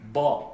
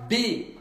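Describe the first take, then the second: First: The sound is full, muffled, with a filled mouth. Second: The sound is thin and very sharp, French-like. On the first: "on doit gonfler la bouche, un peu remplir la bouche" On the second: "très aigu"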